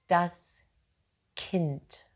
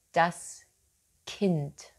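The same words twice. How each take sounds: The two takes are said the same way.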